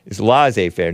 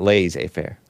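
First: Laissez said "lah-zay"; corrected pronunciation. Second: Laissez said "lay-zay"; old pronunciation. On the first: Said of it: "not laissez faire". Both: Shown as a demonstration.

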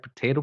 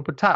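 First: "potato" as puh-TAY-toh; "potato" the American way, puh-TAY-toh; usual pronunciation. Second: "potato" as puh-TAH-toh; "potato" the other way, puh-TAH-toh; alternate pronunciation. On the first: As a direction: say "potato" with a long AY in the middle. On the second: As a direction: say "potato" with an AH in the middle. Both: Retold or imitated. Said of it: "It's like potato, potato".

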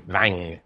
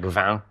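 First: Vin said the southern French way, nasal opened up; southern French accent. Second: Vin said the Paris way; plain Parisian vin; standard French. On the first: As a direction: vin drawn out with a southern twang. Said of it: "they say vin". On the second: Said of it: "instead of saying, like, vin in French for wine". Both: Shown as a demonstration.

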